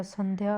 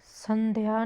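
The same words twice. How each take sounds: First: Said in the usual way. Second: संध्या as "san-de-ya", three syllables; misspelling read out. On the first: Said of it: "होता है". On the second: Shown as a demonstration. Teacher showing a misspelling, extra vowel. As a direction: split the cluster in संध्या. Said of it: "नहीं होता".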